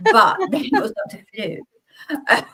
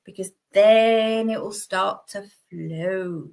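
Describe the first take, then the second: First: Giggling through the line, slow and higher; higher, slow laughing retake. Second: Slow, drawn-out unintended innuendo on flow; slow suggestive drawl on flow; accidentally suggestive. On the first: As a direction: redo it while cracking up at the innuendo. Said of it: "Don't know where that came from". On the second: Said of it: "Oh, that sounded very rude". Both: Real, not acted.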